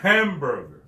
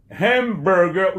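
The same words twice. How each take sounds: First: Hamburger with ham hit hard; stress on ham. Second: Hamburger slow, with ham hit hard; stress on ham. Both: Shown as a demonstration. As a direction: punch the ham in Hamburger, then let it fall. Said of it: "punch à tomber sur ham".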